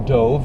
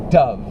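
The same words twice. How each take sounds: First: The vowel is a long o sound. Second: The vowel is a short uh sound. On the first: The speaker calls it wrong. "it's not a dove" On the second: The speaker calls it right. "It's this short uh again"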